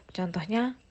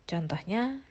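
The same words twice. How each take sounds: The two takes are said the same way.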